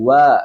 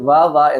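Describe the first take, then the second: First: The lips are rounded and pushed forward, like w. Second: Upper teeth touch the lower lip, like a v. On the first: The speaker calls it right. "ചുണ്ട് കൂർപ്പിച്ചതാണ്" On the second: The speaker calls it wrong. "മേലെ മുൻപിലെ തല താഴെ ചുണ്ടുമ്പോ തട്ടിച്ചിട്ട് വാ വാ എന്ന് പറയാൻ പാടില്ല. അത് തെറ്റാണ്"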